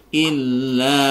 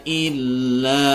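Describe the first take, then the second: Both takes have the same delivery.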